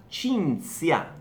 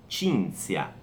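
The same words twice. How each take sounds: Both takes have the same delivery.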